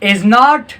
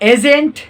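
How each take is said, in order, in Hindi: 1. यह दो पूरे शब्दों की तरह बोला जाता है। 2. यह संक्षिप्त होता है, अंतिम t का उच्चारण होता है। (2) "दूसरे पर हमारे पास आता है एजेंट"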